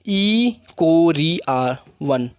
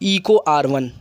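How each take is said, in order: First: The first part is said as 'E coli'. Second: The first part is said as 'Eco'. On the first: "इसको हम पढ़ते हैं ई कोरी आर one" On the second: "या इसको पढ़ते हैं इको आर one"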